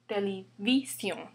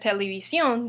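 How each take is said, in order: First: The stress is on the second-to-last syllable. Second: The stress is on the last syllable. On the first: The speaker calls it wrong. "Without accent, the stress would be on this I" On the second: The speaker calls it right. "But we pronounce it as televisión"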